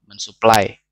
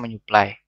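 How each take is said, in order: First: The s sound is kept after the prefix. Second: The s sound is replaced by a nasal. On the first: The speaker calls it wrong. "bunyi S K P T yang tidak lulu" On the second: The speaker calls it right. "harus lulu menjadi bunyi sengau"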